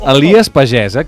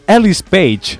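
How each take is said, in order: First: The name is said as 'Elies Pagès'. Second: The name is said as 'Ellis Page'. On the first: This is the real street name. The speaker calls it right. "hi ha el carrer Elies Pagès" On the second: This is how the GPS mispronounced it. The speaker calls it wrong. "Em va dir... Ellis Page"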